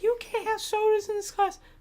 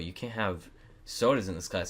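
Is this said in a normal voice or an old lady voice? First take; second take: old lady; normal. First: It is said in a frail old-lady voice. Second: It is said in the speaker's normal voice.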